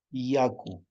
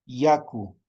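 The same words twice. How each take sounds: First: Yaku, falling tune, stress on ya; teacher repeats Yaku. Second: Yaku with a y sound, stress on ya; teacher models yaku; modeling yaku. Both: Shown as a demonstration.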